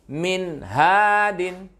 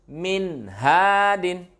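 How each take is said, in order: Both takes have the same delivery.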